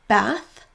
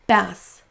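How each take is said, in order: First: The word ends with a th sound. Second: The word ends with an s sound. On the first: "Pour le premier, donc votre langue va démarrer au niveau de vos dents" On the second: "Pour le deuxième, on aura juste un son S classique"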